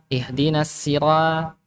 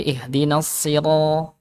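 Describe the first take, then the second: First: Sira, slow with a thin ra; thin ra in ihdinas sira,; thin ra wrong. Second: Sira. slow with a heavy ro; heavy ro in ihdinas sira; heavy ro right. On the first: Teacher repeats the wrong thin ra for class. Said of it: "bukan ra". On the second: Teacher gives the right heavy ro to class. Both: Shown as a demonstration.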